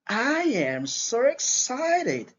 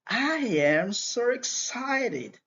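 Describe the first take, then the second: Both takes have the same delivery.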